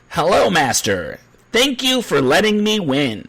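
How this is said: It is said with a Southern Californian accent. This is how the dubbed version sounds. The speaker calls it wrong. "If you're watching it with the dub, ... It's very off putting"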